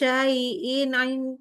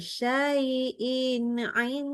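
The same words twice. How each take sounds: First: The phrase is said quickly, rushing the nasal. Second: The phrase is said slowly, holding the nasal. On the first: The speaker calls it wrong. "nggak boleh bacanya gitu" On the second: The speaker calls it right. "Pelan-pelan aja"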